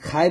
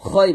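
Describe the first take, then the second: First: খাই with an open aa, light; thin khai. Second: খই with rounded o, heavy in the throat; thick khoi. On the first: Teacher shows the mistake to avoid, thin khai. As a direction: say খাই as plain Bengali khai. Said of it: "খাই বলা যাবে না". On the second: Teacher shows the correct sound, thick khoi. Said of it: "খই বলতে হবে". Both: Shown as a demonstration.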